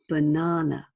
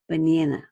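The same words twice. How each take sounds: First: It is said in a British accent. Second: It is said in an American accent. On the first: "I am British and I use British pronunciation. So for example, the word banana, I say banana" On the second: "An American might say banana"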